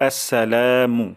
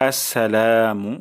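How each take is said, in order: The two takes are said the same way.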